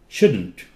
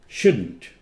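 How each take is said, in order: No difference in how they are said.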